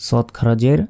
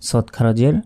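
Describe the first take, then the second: No difference in how they are said.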